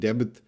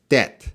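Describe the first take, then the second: First: A B sound is pronounced in the middle. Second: No B sound is pronounced at all. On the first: The speaker calls it wrong. "they're really pronouncing that B every time" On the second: The speaker calls it right. "That B is silent"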